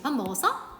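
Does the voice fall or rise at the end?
rise. The pitch rises at the end. It asks whether someone has eaten.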